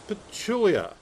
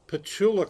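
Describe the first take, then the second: First: The name ends with an added 'lia' sound. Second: The name ends with a plain 'la' sound. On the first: The speaker calls it wrong. "not Petulia" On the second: The speaker calls it right.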